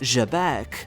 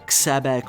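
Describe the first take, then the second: First: It starts with a soft French-like zh sound. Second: It starts with a harder, non-French sound. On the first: The speaker calls it right. "with a J sound" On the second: The speaker calls it wrong. "it's not pronounced"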